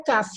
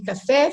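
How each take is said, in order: First: Caf said as CA-fi, weak ending; stress shifted to first syllable. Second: Café with the last syllable stressed; stress on final syllable. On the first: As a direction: hit the first syllable of caf, as if café lost its accent. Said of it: "Se eu tirar o acento de café". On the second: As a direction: say café, landing firmly on the final é. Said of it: "fica caf". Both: Shown as a demonstration.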